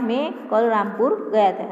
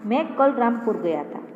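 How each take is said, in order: First: The stress is on Rampur. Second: The stress is on मैं.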